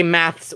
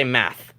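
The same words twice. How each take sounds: First: "maths" with an added final s; British pronunciation. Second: "math" lower, ending on bare th; North American pronunciation. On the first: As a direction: contrast "maths" by its ths ending. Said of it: "So they say maths". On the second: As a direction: drop the s from "math". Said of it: "we say math". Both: Shown as a demonstration.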